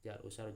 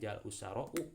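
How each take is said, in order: First: The last word ends in an a sound. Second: The last word ends in an added u sound. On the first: The speaker calls it right. "tetap bacanya ja'al usaro ya" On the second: The speaker calls it wrong. "bukan ja'al usaro u gitu"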